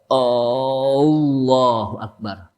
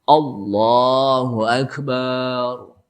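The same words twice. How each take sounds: First: The first vowel of Akbar is lengthened. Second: The last syllable of Akbar is lengthened. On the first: "A-nya dipanjangin. Tidak boleh" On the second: "Barnya panjang, nggak boleh juga"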